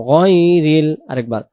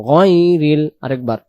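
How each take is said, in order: Both takes have the same delivery.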